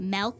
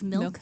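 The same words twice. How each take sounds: First: The vowel sounds like the e in 'bet'. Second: The vowel sounds like the i in 'bit'.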